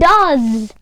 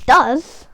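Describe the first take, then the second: First: The word ends with a buzzing z sound. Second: The word ends with a hissing s sound. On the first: The speaker calls it right. "They say does with a Z" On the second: The speaker calls it wrong. "not does with an S"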